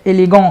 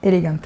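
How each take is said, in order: First: The word is said with a French-like ending. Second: The word is said with a plain English ending. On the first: The speaker calls it wrong. "هي اليجون دي اصلا كلمه بالفرنساوي اكيد؟" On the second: The speaker calls it right. "ما تقول اليجانت وخلاص"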